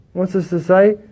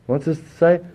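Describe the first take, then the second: No difference in how they are said.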